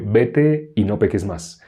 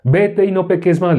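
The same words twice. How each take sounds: First: Slow, measured pardon; understated, unhurried authority; Jesus's calm command. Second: Higher, imitated moral order; mock religious command. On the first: Acted. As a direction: speak slowly and simply as Jesus. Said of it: "¿por qué le dijo a la mujer sorprendida en adulterio". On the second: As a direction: imitate a hypocrite ordering a sinner. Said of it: "le dice".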